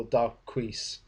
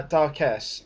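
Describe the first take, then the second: First: Darquise said slowly the French way, dar-keez; French pronunciation. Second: Darkesse said slowly as English dark-ess; English pronunciation. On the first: Reviewer offers the French way, slowly saying Darquise as dar-keez. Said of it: "or Darquise, if you're French". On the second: Reviewer tries out the villain's name, saying Darkesse as English dark-ess. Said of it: "I don't know if I actually pronounced this right". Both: Shown as a demonstration.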